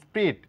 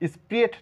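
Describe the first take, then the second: First: The vowel is said as one sound. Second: The vowel is split into two sounds. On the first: The speaker calls it right. "এ silent" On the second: The speaker calls it wrong. "স্প্রিয়েট না করে"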